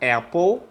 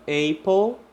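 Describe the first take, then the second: First: It uses the standard English pronunciation. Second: It uses the common learner pronunciation. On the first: The speaker calls it right. "Apple, sim" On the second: The speaker calls it wrong. "muitas pessoas falam apple. E apple não está correto"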